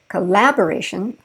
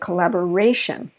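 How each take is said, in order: First: The main stress falls before the fourth syllable. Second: The main stress falls on the fourth syllable. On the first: The speaker calls it wrong. "I didn't say collaboration" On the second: The speaker calls it right. "we shift that stress to right before the I O N"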